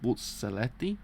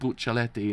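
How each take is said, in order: First: The middle consonant is a z sound. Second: The middle consonant is not a z sound. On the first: The speaker calls it right. "It's actually with a Z, apparently" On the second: The speaker calls it wrong. "I pronounce it Buccelleti, and it's not"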